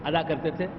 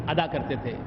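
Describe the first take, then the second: The two takes are said the same way.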